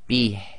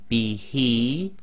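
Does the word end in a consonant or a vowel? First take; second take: consonant; vowel. First: The word ends on a bare consonant sound. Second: The word ends with a long vowel sound. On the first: The reader stops or pauses here. "If you stop at the end of a sentence" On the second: The reader continues without stopping. "normally this would be"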